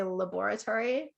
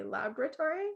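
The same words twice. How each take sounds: First: Laboratory said as la-BOR-a-tory, stress on the second syllable; Canadian stress on BOR in laboratory; la-BOR-a-tory with a Canadian lilt; Canadian la-BOR-atory. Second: Laboratory said as LAB-ra-tory, stress on the first syllable, the middle vowel dropped; American stress on LAB in laboratory; LAB-ruh-tory, the American way. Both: Shown as a demonstration. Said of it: "Some people might say".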